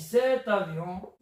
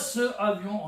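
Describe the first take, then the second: First: A t sound links into avion. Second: There is no t sound before avion. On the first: The speaker calls it right. "on dit cet avion" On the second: The speaker calls it wrong. "on dit pas ce avion"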